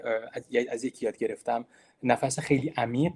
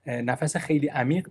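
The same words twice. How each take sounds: First: Said in the usual way. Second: خیلی said with a lifted stress and rising tune. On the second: Shown as a demonstration. Lecturer urging students before a talk, stressing خیلی. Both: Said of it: "ولی خیلی عمیق".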